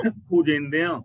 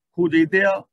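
First: ਖੋਜੇਂਦਿਆਂ said as khojendeaan, with nasal n; nasal with bindi. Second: ਖੋਜੇਂਦਿਆਂ said as khojetea, no nasal n; ਖੋਜੇਂਦਿਆਂ with its bindi left out; misread without nasal. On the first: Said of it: "ਬਿੰਦੀ ਲਗਾ ਕੇ". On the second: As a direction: loudly show the wrong khojetea, dropping the nasal. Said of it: "ਨਹੀਂ ਬੋਲਣਾ". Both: Shown as a demonstration.

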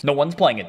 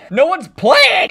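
First: Said in the usual way. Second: Loud, high, drawn-out complaint; frustrated yell. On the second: Real, not acted. Gamer finding the game mode empty, frustrated yell. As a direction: wail it slowly and loudly.

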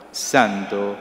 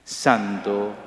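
Both takes have the same delivery.

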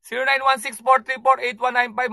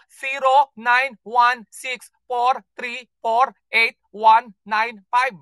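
First: Said in the usual way. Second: Digit by digit, slowly and deliberately; slow dictation. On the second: Shown as a demonstration. Host dictating the phone number to callers, slow and deliberate. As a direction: spell out the number with a gap after each digit.

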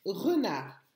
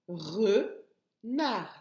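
First: Said in the usual way. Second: "Renard" cut into two separate beats; teacher sounding out "Renard" by syllable; split into syllables. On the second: Shown as a demonstration. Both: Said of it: "La première syllabe".

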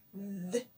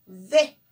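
First: "D" as its bare consonant sound, soft and low; letter sound. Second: Said in the usual way. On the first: Shown as a demonstration. Teacher showing a child the letter's sound, bare soft "D". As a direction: voice only the sound of "D", without the vowel. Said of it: "cómo se pronuncia la consonante D". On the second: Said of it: "D mayúscula".

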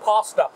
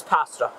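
First: Pasta as "PAH-stuh", a bit louder; broad open "ah" in pasta; pronounced with "ah". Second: Short flat "a" as in cat in pasta; pronounced with short "a". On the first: Camper shows the rejected way, pasta with a long "ah". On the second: Camper shows the preferred way, pasta with a short "a". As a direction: say pasta as "PASS-tuh". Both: Shown as a demonstration. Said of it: "Not pasta".

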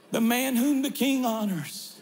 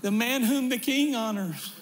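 First: The word whom hit as the peak; stress on whom. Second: The word king hit as the peak; stress on king. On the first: Pastor repeating the line, stress on whom. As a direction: lean on whom, then let it fall. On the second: Pastor quoting the story, stress on king. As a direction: lean on king, then let it fall. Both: Shown as a demonstration.

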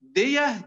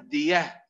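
First: دية pitched up and louder; stressed demo of دية; loud high stress. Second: Said in the usual way. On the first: Shown as a demonstration. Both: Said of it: "أذكركم بأمثلة تعرفونها".

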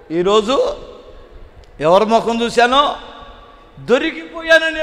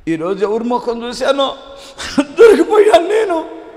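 First: Said in the usual way. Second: High, loud half-laughing sob, slowing down; mock sobbing. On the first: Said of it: "ఏడుస్తున్నాడు వాడు". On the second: Thief sobbing over being caught, hammed-up high wail. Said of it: "అన్నాడంట".

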